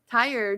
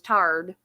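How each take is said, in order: First: The vowel glides fully from 'ah' to 'ee'. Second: The vowel is flattened to a plain 'ah'.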